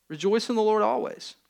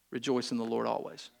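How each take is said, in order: First: Said in the usual way. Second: Quiet last words. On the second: Pretend. Imagined final dying words.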